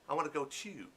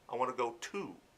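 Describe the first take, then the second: First: "To" sounds like "chew", non-American style. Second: "To" sounds like "two", American style.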